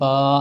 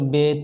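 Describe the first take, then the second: First: The letter name is said the Arabic way. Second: The letter name is said the Urdu way.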